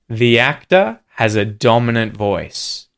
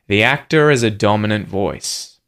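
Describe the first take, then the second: First: The h at the start of 'has' is pronounced. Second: The h at the start of 'has' is dropped.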